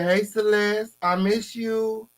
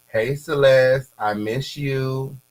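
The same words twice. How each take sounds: First: High, slow mock voice of the sender; mocking quote. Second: Slow, drawn-out reading of a flirty text; reading a message aloud. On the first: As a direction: say it in a much higher teasing voice. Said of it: "He said". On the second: Retold or imitated. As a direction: stretch out each word like a lovesick note. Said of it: "Here go the messages".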